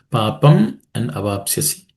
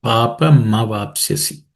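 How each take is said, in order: First: Papam and Avapsyasi as two separate words; split sandhi. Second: "Papa ma vapsyasi" linked through the syllable "ma"; joined sandhi. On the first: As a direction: keep Papam apart from Avapsyasi. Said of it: "is made up of two words". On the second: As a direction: join the words, sounding "ma" in Papa ma vapsyasi. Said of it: "Um and A together becomes Ma". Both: Shown as a demonstration.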